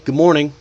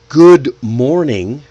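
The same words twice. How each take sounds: First: The two words are linked together smoothly. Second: The two words are said separately.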